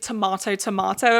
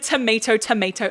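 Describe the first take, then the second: First: The phrase is said with British pronunciation. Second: The phrase is said with American pronunciation. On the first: "in British lingo" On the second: "I think of it in like an American accent"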